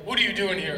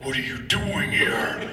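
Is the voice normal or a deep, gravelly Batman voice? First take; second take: normal; Batman voice. First: It is said in a normal voice. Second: It is said in a deep, gravelly Batman voice.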